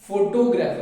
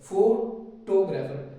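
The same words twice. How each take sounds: First: The stress falls on the expected syllable. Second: The stress falls on an unexpected syllable. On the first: The speaker calls it right. "Photographer होता है" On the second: The speaker calls it wrong. "यहाँ पे stress ना दे करके यहाँ stress दे दूँ"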